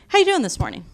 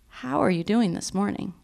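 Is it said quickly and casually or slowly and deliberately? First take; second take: quickly, casually; slowly, deliberately. First: It is said quickly and casually. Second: It is said slowly and deliberately.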